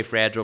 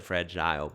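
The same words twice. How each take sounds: First: "fragile" as FRAJ-ul; short swallowed ending on "fragile"; usual variant. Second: "fragile" as fra-JILE; other variant. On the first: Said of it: "I say fragile probably ninety percent". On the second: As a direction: end "fragile" like aisle. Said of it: "I've said fragile before". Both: Shown as a demonstration.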